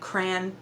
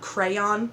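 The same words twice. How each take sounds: First: The word is said as one syllable. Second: The word is said as two syllables. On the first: The speaker calls it wrong. "I've always said it crayon" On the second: The speaker calls it right. "not crayon ... a two-syllable word"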